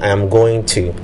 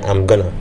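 First: The words 'going to' are said in full. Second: The words 'going to' are reduced to 'gonna'. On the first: "Instead of saying" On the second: "I'm probably going to say"

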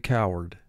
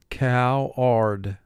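First: The word is said smoothly as one natural unit. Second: The word is said in two separated, careful syllables. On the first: It is how the word is said in everyday talk. "And in conversation, we say coward" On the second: It is a pronunciation to help with spelling. "For spelling, pronounce it cow-ard"

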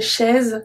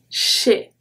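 First: A z sound is pronounced at the end. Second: The final z is silent. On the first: The speaker calls it wrong. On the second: The speaker calls it right.

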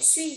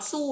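First: The vowel is a rounded front ü sound. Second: The vowel is a plain back u sound. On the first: The speaker calls it right. "đọc là sổ suy nhá" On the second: The speaker calls it wrong. "Không được đọc su"

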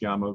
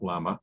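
First: The word begins with a y sound. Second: The word begins with an l sound. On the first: This is how the local people say it. The speaker calls it right. "the way that they pronounce it" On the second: This is how outsiders usually say it. The speaker calls it wrong. "not Llama"

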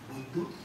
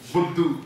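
First: It is said lovingly and affectionately. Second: It is said angrily and harshly.

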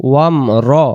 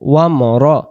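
The two takes are said the same way.

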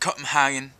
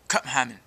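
First: It is said plainly with full English sounds. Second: It is said Danish style with swallowed sounds.

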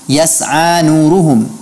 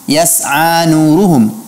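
The two takes are said the same way.

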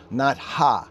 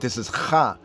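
First: The h is a soft breathy sound. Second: The h is a harsh throaty sound. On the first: The speaker calls it wrong. "distinguishes from regular H" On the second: The speaker calls it right. "This is like special H"

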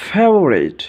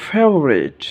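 No difference in how they are said.

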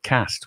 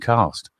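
First: It has a short, flat northern 'a' vowel. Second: It has a long, southern 'ah' vowel. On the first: "I've got to turn Yorkshire. I said cast" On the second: "rather than cast"

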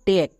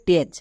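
First: The word ends with a k sound. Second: The word ends with a ch sound. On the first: The speaker calls it right. "এর জন্য উচ্চারণ করব টেক" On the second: The speaker calls it wrong. "অনেকে ভুল করে এর উচ্চারণ করে টেচ"

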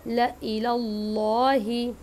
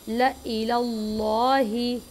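Both takes have the same delivery.

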